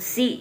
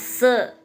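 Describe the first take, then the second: First: The vowel after the s sounds like 'i'. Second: The vowel after the s sounds like 'e'. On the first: The speaker calls it wrong. "bacanya bukan si ya" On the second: The speaker calls it right. "Tapi ini bacanya se"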